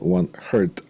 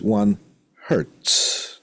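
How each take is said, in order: First: The word ends without the final 's' sound. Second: The word ends with a clear 'ts' sound. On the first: The speaker calls it wrong. "not one hert, as sometimes people have tendencies to uh, to pronounce" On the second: The speaker calls it right. "So there's one hertz"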